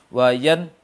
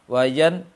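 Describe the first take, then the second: No difference in how they are said.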